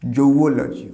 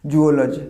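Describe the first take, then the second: First: "জৌওলজি" opening with a জৌ diphthong; correct pronunciation. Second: "জুওলজি" with a plain জু vowel at the start; wrong pronunciation. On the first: Teacher giving students the right form, carefully. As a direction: start "জৌওলজি" with জৌ, ending লজি. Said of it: "উচ্চারণটা হবে জৌওলজি". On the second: Teacher showing the mistake students make, plainly. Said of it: "না, this is not zoology". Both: Shown as a demonstration.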